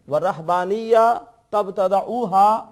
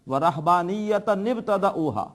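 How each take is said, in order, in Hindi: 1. दोनों शब्द बीच में "n" की आवाज़ के बिना जुड़ते हैं। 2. दोनों शब्द एक जोड़ी गई "n" की आवाज़ से जुड़ते हैं। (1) "या मिला के पढ़ेंगे" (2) "छोटे से नून से इसको मिलाएंगे"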